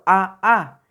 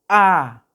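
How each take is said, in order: First: The vowel is said twice in a row. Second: The vowel sound is held longer. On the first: The speaker calls it wrong. "eso no existe, eso no es así" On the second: The speaker calls it right. "la A prolongada sería A. Se prolonga un poquito más"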